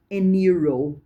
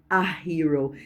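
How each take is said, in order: First: "an hero" with a silent h; old an hero. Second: "a hero" with a sounded h; modern a hero. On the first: Teacher shows the old "an hero", h silent. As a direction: say "an hero" as if it starts with a vowel. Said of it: "É". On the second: Teacher gives today's "a hero" with the h. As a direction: say "a hero" with a clear h. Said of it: "Então hoje fala". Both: Shown as a demonstration.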